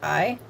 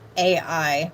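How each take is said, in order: First: The name is said as one single syllable. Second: The name is said as two separate syllables. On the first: The speaker calls it right. "I think it's pronounced I" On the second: The speaker calls it wrong. "I've heard this pronounced A I. I don't think that's how you pronounce it"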